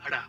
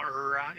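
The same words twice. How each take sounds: First: "ra" with a quick Spanish tap; "ra" in Spanish, r tapped. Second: "ra" with an untapped English r; "ra" mispronounced the English way. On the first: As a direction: say "ra" flicking the tongue once. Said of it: "the R wrong". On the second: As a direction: say "ra" wrongly with the tongue curled back. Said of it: "It's not ra". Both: Shown as a demonstration.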